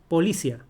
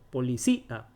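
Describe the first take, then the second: First: The final i and a form one syllable. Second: The final i and a are separate syllables. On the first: The speaker calls it wrong. "No dice así" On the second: The speaker calls it right. "Se separa porque lleva I la tilde"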